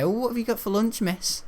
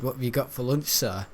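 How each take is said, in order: First: High-pitched imitation of a kid; chirpy pupil asking. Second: Said in the usual way. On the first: Pupil asking the maths teacher about lunch, high mock kid voice. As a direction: put on a pupil piping up, much higher. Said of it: "some of the kids even ask her". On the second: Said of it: "If I said to bloody Richard".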